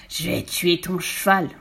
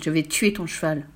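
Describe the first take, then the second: First: Slow, drawn-out villain's roar; furious yell. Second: Understated villain's threat. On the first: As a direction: howl the threat, stretching the words. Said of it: "poussa un hurlement si terrible". (hurlement de rage, mots étirés) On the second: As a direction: menace without raising the voice. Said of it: "cria-t-il". (menace contenue) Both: Acted.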